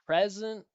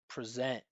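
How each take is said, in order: First: The first syllable's vowel is stressed. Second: The first syllable's vowel is unstressed.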